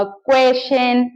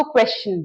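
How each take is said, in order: First: "क्वेश्चन" drawn out as kway-shen; weird student mispronunciation. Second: "क्वेश्चन" as KWESH-chun; correct pronunciation. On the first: Retold or imitated. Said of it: "और भी बड़े weird से pronunciations". ("क्वेश्चन" को धीरे से क्वे-शन बोलें) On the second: Shown as a demonstration. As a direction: sound both sh and ch in "क्वेश्चन". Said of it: "तो आप इसको क्वेश्चन बोलेंगे". ("क्वेश्चन" को क्वेश-चन बोलें)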